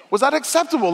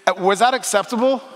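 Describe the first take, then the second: First: Pitched up high in mock disbelief; rising incredulous question. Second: Said in the usual way. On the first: Shown as a demonstration. Preacher teasing parents about baby talk, high incredulous question. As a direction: ask it high, teasing the crowd.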